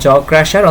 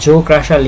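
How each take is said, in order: First: The vowel in 'jaw' sounds like 'ja'. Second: The vowel in 'jaw' sounds like 'jo'. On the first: This is how the speaker usually says it. "এটাকে আমরা জ crusher" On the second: This is how the textbook writes it. "তোমাদের বই অনুযায়ী উচ্চারণটা জো crusher লেখা আছে"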